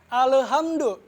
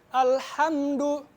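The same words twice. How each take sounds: First: The L sound has an extra bouncing release. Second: The L sound is plain with no bounce. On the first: The speaker calls it wrong. "Biasanya bacanya gini" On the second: The speaker calls it right. "yang benar itu alhamdu. Biasa, nggak ada pantulan"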